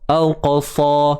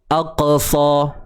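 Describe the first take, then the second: First: The letter keeps its full heavy sound. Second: The letter is weakened and sounds light. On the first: The speaker calls it right. "Contoh kita sebut al-qasa" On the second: The speaker calls it wrong. "Itu dah nampak kita melemahkan sifat huruf tu"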